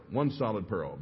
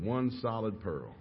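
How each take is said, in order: First: Said in the usual way. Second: Slow and softer, each word weighed; drawn-out, awed emphasis; slow emphatic repeat. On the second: Retold or imitated. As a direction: let "one solid pearl" land slowly.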